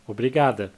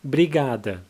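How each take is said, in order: First: The word begins with a full O sound. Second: The first O is dropped, starting with B.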